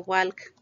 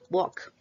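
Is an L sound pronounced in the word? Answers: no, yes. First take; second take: yes; no. First: An L sound is pronounced before the k. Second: No L sound is pronounced before the k. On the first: The speaker calls it wrong. "no se pronuncia walk" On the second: The speaker calls it right. "sin la L, así"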